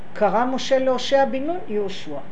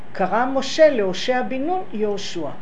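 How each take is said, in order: The two takes are said the same way.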